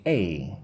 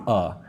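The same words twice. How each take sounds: First: "a" said as ay; full, careful ay for "a"; slow-speech A. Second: "a" said as uh; weak uh for "a"; quick-speech A. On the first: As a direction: say "a" like the letter name. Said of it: "if I speak slowly, I'm going to say a". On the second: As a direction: say "a" as a short schwa. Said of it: "it's like a". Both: Shown as a demonstration.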